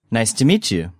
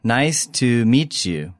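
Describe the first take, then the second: First: Said in the usual way. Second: Slow, careful teacher's model; slowly. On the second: Shown as a demonstration. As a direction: stretch each word for learners. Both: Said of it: "take a look at the vocabulary".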